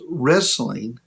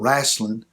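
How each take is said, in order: First: It is said in a standard pronunciation. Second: It is said in a Grassy Creek local accent.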